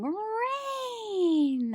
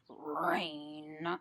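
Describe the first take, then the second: First: The word sounds happy and excited. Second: The word sounds grumpy and displeased. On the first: The speaker is glad about the rain. "he has a big smile on his face" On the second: The speaker does not want the rain. "he looks kind of grumpy"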